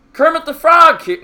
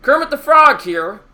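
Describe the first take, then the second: First: Higher, louder puppet frog voice, judged a poor try; a first stab at a Kermit squeak that misses. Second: Second try at a higher, louder frog voice; retrying the voice for the chat, a bit more committed; Kermit the Frog. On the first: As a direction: chat asked for it, so he attempts a shaky high frog voice. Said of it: "Please commentate in a Kermit the Frog voice". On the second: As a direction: have another go at the puppet frog, committing more. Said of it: "I'm trying to do it". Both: Pretend.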